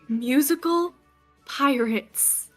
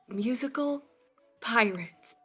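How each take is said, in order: First: It is a louder but still whispery voice. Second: It is a quiet whisper shout.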